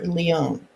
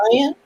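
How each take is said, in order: First: The name is said the French way, like lee-on. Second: The name sounds like the English word lions. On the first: "or the French?" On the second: "Is it the English pronunciation"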